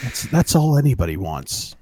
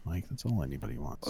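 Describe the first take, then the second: First: Said in the usual way. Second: Much softer, quick murmur; muttered aside. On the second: Real, not acted. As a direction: toss it off under the breath. Repeats line in an aside.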